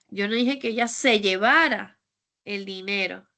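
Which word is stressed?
llevara. The word 'llevara' carries the main stress. She did something else with the money. "Es que tal vez se lo gastó o hizo otra"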